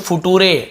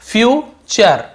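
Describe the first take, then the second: First: The middle consonant is a plain 't' sound. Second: The middle consonant is a 'ch' sound. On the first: The speaker calls it wrong. "ऐसे पढ़ देते हैं, कई लोग मजाक में ऐसे बोल देते हैं" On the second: The speaker calls it right. "लेकिन एक्चुअल में क्या है"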